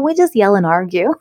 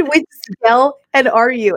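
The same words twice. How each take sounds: First: Said in the usual way. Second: "We just yell and argue." drawn out slowly, each word weighed; slow, emphatic quote. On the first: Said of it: "And I was like". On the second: Retold or imitated. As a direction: repeat the girl's words slowly for effect. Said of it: "She said".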